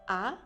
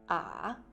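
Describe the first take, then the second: First: The pitch rises toward the end. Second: The pitch dips down and comes back up. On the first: "au deuxième temps, on montre le son. Il semble dire je suis étonné" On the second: "au troisième temps, la prononciation fait un virage"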